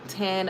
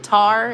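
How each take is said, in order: First: The syllable has an N sound, not R. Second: The syllable has an R sound, not N. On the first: The speaker calls it right. "It's supposed to be Tan" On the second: The speaker calls it wrong. "I said Tar"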